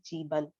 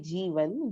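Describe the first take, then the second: First: The middle consonant is a B sound. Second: The middle consonant is a V sound. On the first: "they pronounce V as B" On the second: "it's actually Jeevan"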